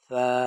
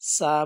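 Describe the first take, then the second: First: The first consonant is soft, like a lisp. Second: The first consonant is a hard, sharp s. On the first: The speaker calls it right. "নরম করে" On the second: The speaker calls it wrong. "সা বলবে না"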